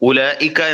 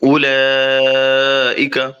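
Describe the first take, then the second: First: The vowel before the hamza is held short. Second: The vowel before the hamza is held long. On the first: The speaker calls it wrong. "എന്നല്ല" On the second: The speaker calls it right. "അപ്പോൾ അവിടെ കൂടുതലായി നീട്ടണം"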